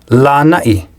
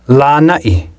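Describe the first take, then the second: The two takes are said the same way.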